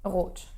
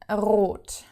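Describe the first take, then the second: First: The R is rolled very briefly. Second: The R is rolled long and exaggerated. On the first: "very briefly" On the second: "of course I'm exaggerating"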